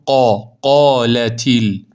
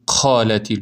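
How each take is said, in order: First: The q sound has no air released. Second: The q sound is released with air. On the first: The speaker calls it right. "بدون خروج هوا" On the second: The speaker calls it wrong. "نمیخونید قالتیل"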